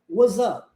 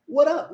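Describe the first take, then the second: First: A Z sound links the two words. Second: An R-like flap links the two words. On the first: "o S sendo transformado em Z" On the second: "Existe a omissão do S, aí o R, o T é transformado em R"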